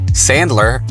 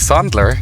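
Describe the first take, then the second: First: It is said with an American pronunciation. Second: It is said with a German pronunciation.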